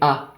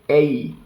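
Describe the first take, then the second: First: The vowel is a short pure 'ah'. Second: The vowel glides like English 'ay'. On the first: "We say A" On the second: "You would say April"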